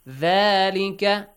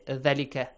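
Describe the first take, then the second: First: The first vowel is stretched for two counts. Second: The first vowel is cut short to one count. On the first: The speaker calls it right. "ذلك for two counts" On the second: The speaker calls it wrong. "Don't say ذلك"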